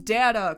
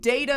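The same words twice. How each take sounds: First: The first vowel sounds like the vowel in 'father'. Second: The first vowel sounds like the vowel in 'day'. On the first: The speaker calls it wrong. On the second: The speaker calls it right.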